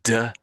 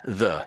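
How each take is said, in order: First: It begins with a hard d sound. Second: It begins with a soft th sound. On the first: The speaker calls it wrong. "you said duh. I think it was duh or da. So that's sort of the German way of saying that word" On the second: The speaker calls it right. "rather than that, the"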